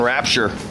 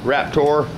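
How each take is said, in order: First: The word ends with a 'cher' sound. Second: The word ends with a plain 'ter' sound. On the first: The speaker calls it wrong. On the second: The speaker calls it right.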